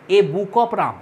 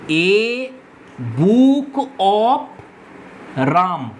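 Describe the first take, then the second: First: Said in the usual way. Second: "A ... book of ... রাম" with long pauses between parts; word-by-word dictation. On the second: Shown as a demonstration. Teacher giving students an example, "A book of রাম" spaced out word by word. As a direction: stretch out "A book of রাম", pausing after A and before রাম.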